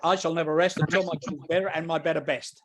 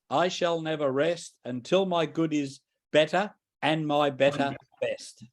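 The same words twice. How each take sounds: First: It is said fast. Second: It is said slowly.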